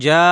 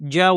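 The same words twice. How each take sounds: First: The vowel is drawn out long. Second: The vowel is kept short. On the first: "যদি জিমের পর টান থাকতো" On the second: "টান ছাড়া"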